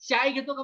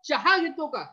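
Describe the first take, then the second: First: The word for tea is said as chai. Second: The word for tea is said as chaha. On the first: This is how people from Nagpur say it. "नागपूरचे लोकं काय म्हणते" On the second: This is how speakers of the local variety say it. "आपण काय म्हणतो"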